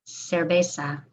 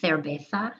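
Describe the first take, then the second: First: The c and z are pronounced like s. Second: The c and z are pronounced like th. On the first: This is how it is said in Latin America. "Latin American way" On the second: This is how it is said in Spain. "the Z and the C I or the C E is a T H"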